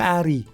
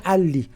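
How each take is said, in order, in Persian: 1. صامت وسطی صدای ر است. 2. صامت وسطی یک صدای ل واضح است. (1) "اگه یه دونه ل بذاره میشه عری" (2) "دوتا میذاره میشه علی"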